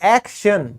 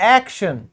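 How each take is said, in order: First: The middle consonant is pronounced as 'sh'. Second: The same.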